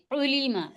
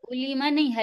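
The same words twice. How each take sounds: First: علیما with the ain pressed from the throat; علیما with throat effort. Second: علیما with a light alif, no throat; wrong take. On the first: (حلق پہ زور دے کر علیما) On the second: (غلط علیما، حلق کے بغیر) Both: Shown as a demonstration. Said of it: "حلق پہ زور دیں".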